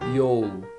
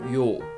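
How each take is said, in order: First: The opening Y sound is drawn out. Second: The opening Y sound is very quick. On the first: The speaker calls it wrong. "I see many beginners say that yo, yo. That is wrong" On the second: The speaker calls it right. "Y sound is very quick"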